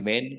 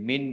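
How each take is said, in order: First: The vowel is a short 'eh' sound. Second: The vowel is a long 'ee' sound. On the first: The speaker calls it right. "ઉચ્ચાર તો મેન કરવાનો છે" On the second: The speaker calls it wrong. "એ મીન નહીં થાય"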